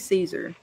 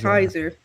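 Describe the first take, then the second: First: The name begins with an S sound. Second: The name begins with a K sound. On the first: This is how it is usually pronounced. "It should be Caesar" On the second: This is how the show pronounces it. "that's right"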